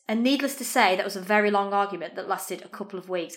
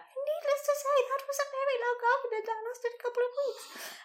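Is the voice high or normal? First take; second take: normal; high. First: It is said in her normal voice. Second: It is said in a really high voice.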